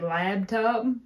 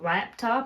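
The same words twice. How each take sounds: First: The middle consonant is a b sound. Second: The middle consonant is a p sound. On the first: The speaker calls it wrong. "I've always said lab" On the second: The speaker calls it right. "instead of laptop"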